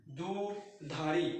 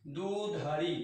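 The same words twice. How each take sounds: First: दुधारी drawn out slowly, syllable by syllable; दुधारी said slowly, spelling it out by sound; slow, clear pronunciation. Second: Said in the usual way. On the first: Shown as a demonstration. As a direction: stretch out दुधारी so each part is heard. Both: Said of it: "दो उपसर्ग है और आगे धारी लिखा है".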